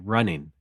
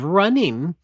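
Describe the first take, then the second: First: The word is said in a relaxed, everyday way. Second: The word is said in a heightened, careful way. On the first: This is everyday speech. "That's how I normally say it" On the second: This is speech for a podcast discussion. "If I'm saying it heightened in a discussion on a podcast"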